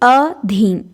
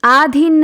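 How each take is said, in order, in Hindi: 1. पहला स्वर छोटी a ध्वनि है। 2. पहला स्वर लंबी aa ध्वनि है। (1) "तो ध्यान रखेंगे अधीन" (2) "आधीन नहीं"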